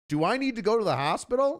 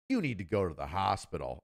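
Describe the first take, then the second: First: "hospital" lifted high as a question; retold question. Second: Low statement falling on "hospital"; retold firm verdict. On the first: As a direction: ask it high and quick, rising on "hospital". Retelling his question to lieutenant. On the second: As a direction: say it low and final, "hospital" going down. Retelling lieutenant's firm answer.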